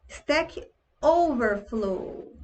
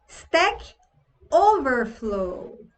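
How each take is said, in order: No difference in how they are said.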